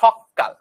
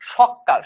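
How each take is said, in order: First: The middle consonant is doubled and held long. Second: The middle consonant is short and single.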